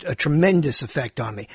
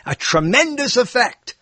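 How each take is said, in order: First: Said in the usual way. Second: "tremendous" lifted high, then falling; emphatic TREMENDOUS. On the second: Shown as a demonstration. Comic repeats his own phrase for effect, emphatic high "tremendous". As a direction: punch up the word "tremendous".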